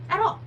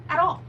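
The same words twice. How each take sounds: The two takes are said the same way.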